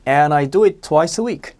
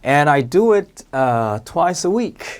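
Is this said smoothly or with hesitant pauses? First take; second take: smoothly; hesitant pauses. First: It is said smoothly without hesitation. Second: It is said with a hesitant filler pause.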